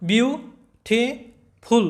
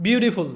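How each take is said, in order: First: "beautiful" in three slow, separated beats; split into syllables. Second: Said in the usual way. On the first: Shown as a demonstration. Teacher demonstrating three syllables, slowly separated "beautiful". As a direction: break "beautiful" as বিউ, টি, ফুল with pauses. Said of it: "তিনবারে উচ্চারণ করতে হয়". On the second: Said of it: "তিনবার উচ্চারণ করতে হয়".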